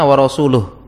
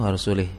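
First: The last word ends with an 'uh' sound. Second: The last word ends with an 'ih' sound. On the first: God and his messenger are free of the idolaters. The speaker calls it right. "Yang benar adalah" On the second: God is free of the idolaters and of his messenger. The speaker calls it wrong. "dia bacanya wa annallaha bari'um minal musyrikina wa rasulih, bacanya wa rasulih"

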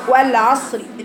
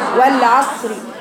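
Both takes have the same delivery.

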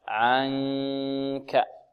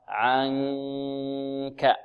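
First: The n is hidden as a nasal hum. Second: The n is hidden as a nasal hum.

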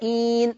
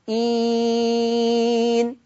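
First: The vowel is held for two counts. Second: The vowel is held for four counts. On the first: "إين 2 حركات" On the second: "إين 4"

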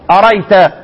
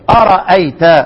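First: The second hamza is dropped entirely. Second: The second hamza is pronounced fully.

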